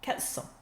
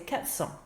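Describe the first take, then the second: First: The r of quatre is dropped before cents. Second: The same.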